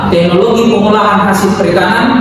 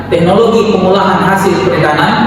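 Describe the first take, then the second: No difference in how they are said.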